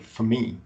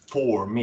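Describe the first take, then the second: First: The word 'for' has a reduced schwa vowel. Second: The word 'for' has a full vowel. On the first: The speaker calls it right. "you say for me, ... You have F uh, schwa and then me" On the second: The speaker calls it wrong. "you don't say for me"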